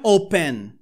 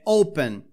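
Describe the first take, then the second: First: The stress is on the second syllable. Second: The stress is on the first syllable. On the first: The speaker calls it wrong. "Não é open" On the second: The speaker calls it right. "a sílaba tônica está no O"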